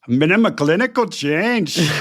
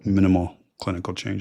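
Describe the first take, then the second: First: It is said in a put-on German accent. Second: It is said in his ordinary accent.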